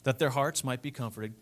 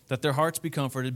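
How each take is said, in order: First: It is read slowly. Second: It is read fast.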